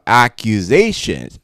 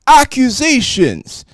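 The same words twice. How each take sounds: First: Said in the usual way. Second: Drawn out, much higher and dramatic; high dramatic exclamation. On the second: Shown as a demonstration. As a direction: exclaim it slowly with a big rise.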